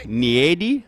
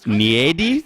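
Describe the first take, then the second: Both takes have the same delivery.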